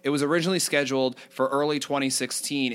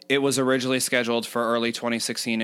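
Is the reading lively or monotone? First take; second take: lively; monotone. First: The pitch varies with lively inflections. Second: The pitch stays flat with little inflection. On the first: The speaker calls it right. "I'll do certain like inflections like that" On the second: The speaker calls it wrong. "as opposed to certain people would read like this"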